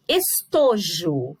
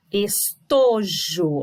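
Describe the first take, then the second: First: "Estojo" with a long, strong TO; stress on TO. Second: "estojo" stretched slowly, syllable by syllable, with TO strongest; drawn-out stress on TO. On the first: Teacher showing the tonic syllable to pupils, stressed TO. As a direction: lean on the middle syllable of "Estojo". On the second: Teacher showing pupils the tonic syllable, slow stressed TO. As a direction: draw out es-TO-jo, very slowly. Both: Shown as a demonstration. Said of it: "Olha lá, o to é a minha sílaba tônica".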